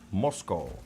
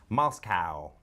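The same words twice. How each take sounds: First: A general accent, without a Southern US flavour. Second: A Southern US accent, ending like cow.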